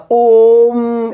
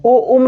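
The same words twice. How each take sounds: First: "ओम" as one long, held ओ closing into म; prolonged vowel. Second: "ओ उम" broken into two separate syllables; wrong reading. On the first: Teacher showing the correct reading, "ओम" drawn out long. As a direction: stretch the ओ of "ओम" to three beats, unbroken. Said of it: "इस तरीके से पढ़ा जाएगा". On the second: Teacher showing the wrong way to read it, "ओ उम" split in two. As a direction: say "ओ उम" as ओ, then a short उम. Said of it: "ओ उम नहीं होता". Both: Shown as a demonstration.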